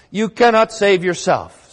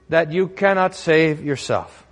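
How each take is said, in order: First: Louder and higher, cannot hammered; forceful stress. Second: Slow, deliberate stress on cannot; solemn slow statement, cannot leaned on; slow, weighty. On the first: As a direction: drive "cannot" home like a verdict. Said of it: "repeated line, now climactic". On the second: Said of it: "preacher repeats line, second time stronger". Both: Real, not acted.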